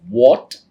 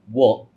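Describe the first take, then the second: First: The final T is released strongly. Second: The final T is soft and light. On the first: The speaker calls it wrong. "it's like the T sound is there" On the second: The speaker calls it right. "It'll be much better if you pronounce it as what"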